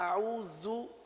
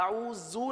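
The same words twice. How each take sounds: First: The middle consonant is a soft z sound. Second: The middle consonant sounds like a j. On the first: The speaker calls it right. "जाल के अंदर भी नरमी ही पाई जाती है" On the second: The speaker calls it wrong. "आऊज़ु नहीं पढ़ेंगे, जू तो जा बन गया"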